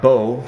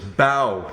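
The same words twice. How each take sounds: First: It does not rhyme with 'cow'. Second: It rhymes with 'cow', like bowing. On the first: The speaker calls it wrong. "not bow" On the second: The speaker calls it right. "The first syllable is bow, similar to the bow of a ship or the action of bowing"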